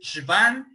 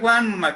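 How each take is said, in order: First: The name is pronounced the German way, like 'van'. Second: The name is pronounced Spanish-style, like 'Juan'. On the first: The speaker calls it right. "si es en alemán, lo quieren decir apropiadamente es Schwann" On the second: The speaker calls it wrong. "castellanizado, mexicanizado"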